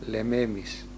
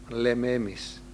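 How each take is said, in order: The two takes are said the same way.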